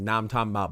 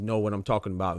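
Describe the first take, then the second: First: "now I'm talking about" slurred Southern, "know what" run into "now"; Southern twang. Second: Said in the usual way. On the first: Shown as a demonstration. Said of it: "you say it with a Southern twang". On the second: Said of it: "but you say it with a Southern twang is".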